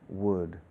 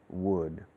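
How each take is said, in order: The two takes are said the same way.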